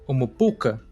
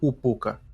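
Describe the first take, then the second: First: Every syllable of the word is pronounced. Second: A middle syllable is dropped from the word.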